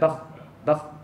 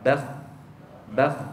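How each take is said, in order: First: The final consonant is cut off quickly. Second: The final consonant is drawn out and prolonged. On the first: The speaker calls it wrong. "Jangan baca" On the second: The speaker calls it right. "tetapi kita baca"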